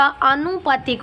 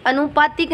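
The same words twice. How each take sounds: First: आनुपातिक with long opening aa; correct form. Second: अनुपातिक with short opening a; wrong form. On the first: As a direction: say आनुपातिक with the first vowel drawn out. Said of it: "आनुपातिक होता है". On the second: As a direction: say अनुपातिक starting on a brief uh. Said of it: "अनुपातिक नहीं होता". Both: Shown as a demonstration.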